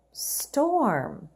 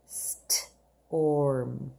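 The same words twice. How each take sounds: First: Said in the usual way. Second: Slow model read. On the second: Shown as a demonstration. Teacher modelling storm slowly for the class. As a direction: storm drawn out long and low. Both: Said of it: "Let's read the words together".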